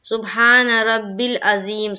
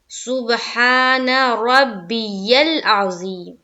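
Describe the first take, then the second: First: The middle word is said as two syllables, 'rabbil'. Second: The middle word is said as three syllables, 'rabbiyal'. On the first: The speaker calls it wrong. "यहाँ पर लोग पढ़ने में क्या गलती करते हैं" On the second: The speaker calls it right. "तो देखिए दुरुस्त करनी होगी"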